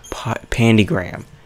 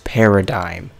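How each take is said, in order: First: The word is said as pan-di-gram. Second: The word is said as pa-ra-dime. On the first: The speaker calls it wrong. "I was pronouncing this wrong. It's not pandigram" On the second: The speaker calls it right. "it's paradigm"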